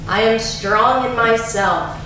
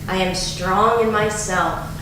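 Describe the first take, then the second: First: It is said in a loud, strong voice. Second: It is said softer but still intensely. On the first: "first in a strong voice" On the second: "a little softer, but with still with great intensity"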